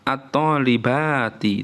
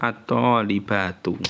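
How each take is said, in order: First: The word ends in an i vowel. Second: The word ends in a u vowel. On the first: The speaker calls it wrong. "itu nggak boleh" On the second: The speaker calls it right. "tetap dibaca"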